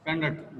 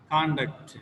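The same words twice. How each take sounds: First: Conduct stressed on -duct; second-syllable stress. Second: Conduct stressed on con-; first-syllable stress. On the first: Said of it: "The second syllable". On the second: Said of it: "the first letter is the stress point". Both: Shown as a demonstration.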